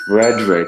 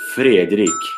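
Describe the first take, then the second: First: The name is said in a plain English accent. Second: The name is said in a Swedish accent.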